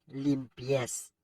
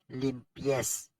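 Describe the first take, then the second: Both takes have the same delivery.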